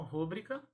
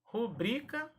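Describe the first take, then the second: First: "rúbrica" said RÚ-brica; stressed first syllable in "rúbrica"; wrong-form demo. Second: "Rubrica" said ru-BRI-ca; high stressed BRI in "Rubrica"; stress on middle syllable. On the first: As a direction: hit RÚ in "rúbrica". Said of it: "e não". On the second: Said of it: "e não rúbrica". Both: Shown as a demonstration.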